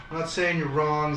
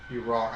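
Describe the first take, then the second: First: Said in the usual way. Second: Deadpan fake verdict; mock-serious. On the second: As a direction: flatly declare it as a joke. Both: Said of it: "I'm kidding".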